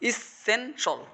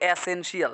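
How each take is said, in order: First: The first vowel is a short 'ih' sound. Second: The first vowel is an open 'eh' sound. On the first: The speaker calls it right. "শব্দ হচ্ছে ইস সেন সল, বলো ইসেনশল" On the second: The speaker calls it wrong. "আমরা তো বলি এসেনশিয়াল, না"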